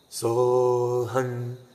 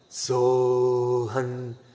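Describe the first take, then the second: First: The sound resonates strongly in the throat. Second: The sound resonates strongly in the throat.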